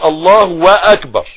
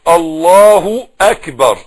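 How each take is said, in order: First: A full 'wa' syllable links the two words. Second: A short 'u' vowel links the two words. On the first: The speaker calls it wrong. "ما تقولش الله واكبر" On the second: The speaker calls it right. "الهيها عليها ضمة بس"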